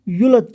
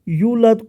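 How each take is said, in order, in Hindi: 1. पहला स्वर छोटा करके बोला जाता है। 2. पहला स्वर लंबा खींचकर बोला जाता है।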